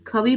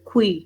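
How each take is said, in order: First: A full vowel separates the kh and v sounds. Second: The kh glides straight into the vowel. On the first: The speaker calls it wrong. "खवी पढ़ने की जरूरत नहीं है" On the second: The speaker calls it right. "This is खुई"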